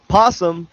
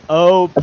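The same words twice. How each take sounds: First: "Possum" said short with no leading "o"; two syllables. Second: "opossum" with a stretched leading "o"; mocking three syllables. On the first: Arguing with a friend, a short "Possum". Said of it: "or three syllables". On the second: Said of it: "Two syllables". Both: Shown as a demonstration.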